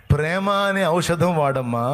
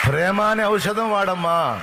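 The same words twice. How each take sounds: First: ప్రేమ అనే ఔషధం వాడమ్మా said slowly, leaning on అనే; slow preaching stress. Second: ప్రేమ అనే ఔషధం వాడమ్మా slow and pitched higher, అనే hit hard; emphatic repeat. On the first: Preacher repeats the uncle's advice, slow and weighted. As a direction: lay out each word deliberately. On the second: Preacher repeats the advice, higher and more emphatic. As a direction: lift it up and drive it home. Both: Shown as a demonstration.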